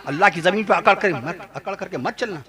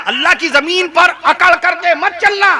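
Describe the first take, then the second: First: Low, hushed and softer, nearly to himself; quiet echo of the warning; softer repeat. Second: Raised preaching voice. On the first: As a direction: let it fall away gently. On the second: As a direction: proclaim it from the pulpit. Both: Shown as a demonstration. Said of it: "repeated softly after".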